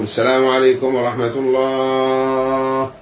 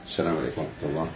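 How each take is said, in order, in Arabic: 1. تُمدّ التحية بإطالة الحروف الطويلة. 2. تُقال التحية مختصرة دون إطالة الحروف. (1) "بإطالة السلام كما يفعل الأئمة، غلط" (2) "حذف السلام، ما في مد"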